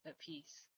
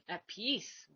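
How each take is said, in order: First: A soft whispered "at peace"; hushed "at peace", barely voiced. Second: Said in the usual way. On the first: Real, not acted. Repeats "at peace" to herself.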